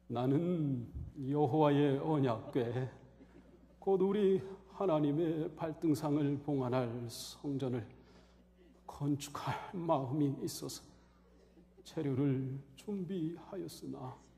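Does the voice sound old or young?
old. It is read in an old, frail-sounding voice. It sounds like a dying man's last words. The speaker calls it right. "다윗의 흉내를 내가지고"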